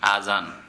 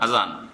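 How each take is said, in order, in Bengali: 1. প্রথম স্বরটি টেনে দীর্ঘ করা হয়। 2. প্রথম স্বরটি হ্রস্ব রাখা হয়। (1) "আলিফে মদ দিয়ে, খাড়া জবর দিয়ে" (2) "ওটাতে খাড়া জবর নেই"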